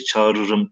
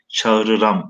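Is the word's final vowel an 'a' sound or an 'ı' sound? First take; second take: ı; a. First: The final syllable has the vowel 'ı'. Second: The final syllable has the vowel 'a'. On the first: This is the modern Turkish form. The speaker calls it wrong. "günümüz Türkçesine göre çağırırım ... tarzında değil" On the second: This is the older form of the poet's language. The speaker calls it right. "çağırıram e, tarzında ... Telaffuz edeceğiz"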